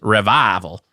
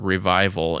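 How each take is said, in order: First: It is said with a drawling, twangy accent. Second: It is said in a plain, neutral way.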